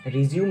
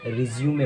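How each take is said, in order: First: "रिज्यूम" ending on m; "रिज्यूम" with no final vowel; wrong pronunciation. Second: "रिज्यूमे" ending in an ay sound; "रिज्यूमे" with a final may; correct pronunciation. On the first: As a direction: say "रिज्यूम" in two syllables. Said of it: "रिज्यूम नहीं होती है". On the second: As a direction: say "रिज्यूमे" in three syllables. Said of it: "इसकी right pronunciation". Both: Shown as a demonstration.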